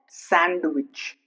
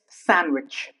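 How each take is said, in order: First: The D sound is pronounced. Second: The D sound is silent. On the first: The speaker calls it wrong. "It's not sandwich" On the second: The speaker calls it right. "It's sandwich"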